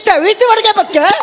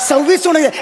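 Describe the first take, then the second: First: It is said loudly, mocking the shouting. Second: It is said in a hushed, quiet voice.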